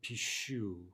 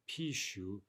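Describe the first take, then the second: First: The stress is on the last syllable. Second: The stress is on the first syllable. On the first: The speaker calls it right. "but pishu, right? Stress on the ending" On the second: The speaker calls it wrong. "Not pishu"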